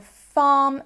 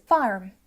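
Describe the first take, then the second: First: Said in the usual way. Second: "farm" with a strongly sounded r; "farm" as farrm, r fully pronounced; rhotic farm. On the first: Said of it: "which I don't use in my accent". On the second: Shown as a demonstration. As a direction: say "farm" the West Country way, arr in the middle. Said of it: "farm versus farm".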